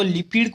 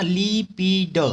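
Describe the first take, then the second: First: Said in the usual way. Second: लिपिड broken into drawn-out ली-पी-ड; syllable by syllable. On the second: Shown as a demonstration. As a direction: sound out लिपिड slowly as "lee-pee-d". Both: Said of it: "लिपिड को हम दिलीप बोल सकते हैं".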